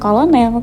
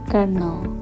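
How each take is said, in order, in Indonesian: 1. Kata ini diucapkan persis seperti ejaannya. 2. Kata ini tidak diucapkan sesuai ejaannya. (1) "bukan kolonel" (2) "tapi colonel"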